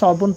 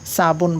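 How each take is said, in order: First: The word begins with an emphatic s. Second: The word begins with a plain s. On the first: "আরবিতে কিন্তু আমরা সবুন পড়তাম" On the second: "উর্দুতে এটা সিনের উচ্চারণ চলে আসে"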